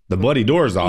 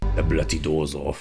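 First: It is said in his own plain voice. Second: It is said imitating Billy Butcher's voice.

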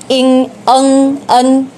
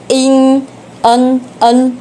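No difference in how they are said.

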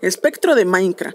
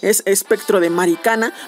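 First: The last word sounds like 'Minecraft'. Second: The last word does not sound like 'Minecraft'. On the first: The speaker calls it wrong. "a mí me gusta decirle así porque parece muy similar" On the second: The speaker calls it right. "yo sé que se pronuncia diferente"

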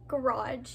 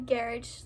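First: It is said with an American pronunciation. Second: It is said with a British pronunciation. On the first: "as like we would say garage" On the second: "you guys would say garage"

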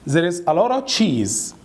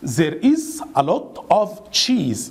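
First: The sentence is said fast. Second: The sentence is said slowly.

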